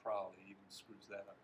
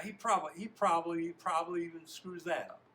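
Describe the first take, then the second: First: Said in the usual way. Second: High, very loud scornful jeer; worked-up taunt. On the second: Shown as a demonstration. Reader retries the line as an upset teammate, jeering. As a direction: blurt it out, slurring "probably". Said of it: "in a state like that".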